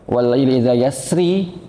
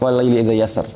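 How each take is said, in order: First: The last word ends with an i vowel. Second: The last word ends on the r consonant. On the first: The speaker calls it wrong. "Tapi nggak enak ya" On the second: The speaker calls it right. "Lebih enakan wal laili idza yasr"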